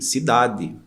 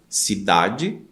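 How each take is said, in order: First: It is said in the Northeastern Brazilian way. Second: It is said in the São Paulo–Rio way. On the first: "na região Nordeste que falam de" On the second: "em São Paulo, Rio, enfim, em várias cidades se fala de"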